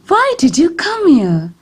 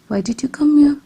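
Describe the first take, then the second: First: The voice sounds surprised and astonished. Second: The voice sounds curious and interested. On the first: "This shows a surprised tone of voice" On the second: "This shows a curious tone of voice"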